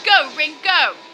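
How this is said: It is said flatly, sounding tired.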